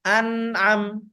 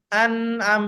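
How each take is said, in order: First: The n runs straight into the next syllable. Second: The n runs straight into the next syllable.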